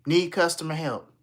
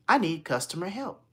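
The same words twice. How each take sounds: First: Louder, firm falling request; insistent repeat. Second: Higher, pitched up at the end; hopeful ask to a machine; caller's first request. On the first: Caller repeating to phone system, louder and insistent. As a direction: spell it out for a machine. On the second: Caller asking phone system for help, tentative request. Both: Retold or imitated.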